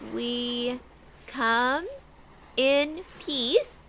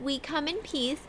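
First: The voice is low and slower. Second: The voice is high and fast. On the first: The speaker calls it right. "she tries to speak in a lower voice" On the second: The speaker calls it wrong. "You speak... too high. Too fast"

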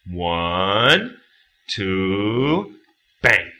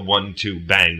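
First: The count is said with a clear rhythmic beat. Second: The count is said flat, with no beat. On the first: The speaker calls it right. "You got to say it like this. Because then you got the rhythm" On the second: The speaker calls it wrong. "You can't just go one, two, bang"

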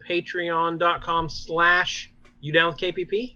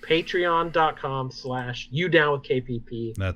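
First: The voice rises at the end like a question. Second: The voice falls at the end like a statement.

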